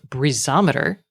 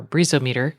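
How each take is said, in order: First: Breezometer stressed on the middle, "bree-ZOM-eter"; alternate pronunciation. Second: Breezometer as "BREEZO-meter", with a long "mee"; alternate pronunciation. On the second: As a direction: say Breezometer as two parts, breezo plus meter. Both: Shown as a demonstration. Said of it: "we'll see how I pronounce it".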